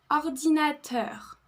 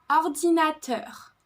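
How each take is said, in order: The two takes are said the same way.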